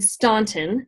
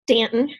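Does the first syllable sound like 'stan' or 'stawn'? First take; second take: stawn; stan. First: The first syllable has an 'aw' vowel. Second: The first syllable has a plain 'a' vowel. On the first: This marks the speaker as an outsider from the north. The speaker calls it wrong. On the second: This is how locals say the town's name. The speaker calls it right.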